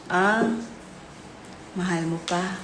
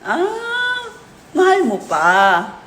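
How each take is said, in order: First: It is said in a sad tone. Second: It is said in a sarcastic tone.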